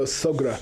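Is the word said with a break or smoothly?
smoothly. It runs straight through without a pause. The speaker calls it right. "you can't pause there. You got to go sogra"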